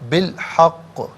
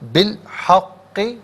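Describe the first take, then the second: First: The last word ends on a consonant. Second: The last word ends with a short vowel. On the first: The reader stops here. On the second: The reading continues without stopping.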